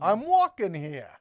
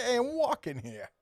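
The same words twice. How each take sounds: First: Slow, loud, leaning on walking; hammed-up indignant pedestrian; mock outrage. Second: High, hammed-up Boston accent with a stretched walking; mock Boston guy yelling at traffic. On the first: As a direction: shout it like an offended New Yorker in traffic. Classic movie line, mock indignant. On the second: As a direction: imitate a Boston buddy's wicked accent. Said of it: "He's got a wicked accent".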